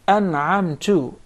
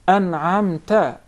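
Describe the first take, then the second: First: The last syllable ends in an u vowel. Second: The last syllable ends in an a vowel. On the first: The speaker says they gave the favor. The speaker calls it wrong. "you change the vowel on top of the ta into Dhamma" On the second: It speaks to the one who gave favor. The speaker calls it right. "it is to the uh, second person"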